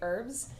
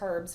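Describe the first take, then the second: First: It is said in the American way. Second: It is said in the Australian way. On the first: "in the States, we say herbs" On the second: "we don't say herbs"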